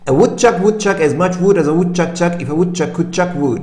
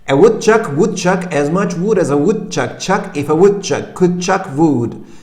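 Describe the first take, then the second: First: It is said faster than before. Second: It is said at a moderate speed.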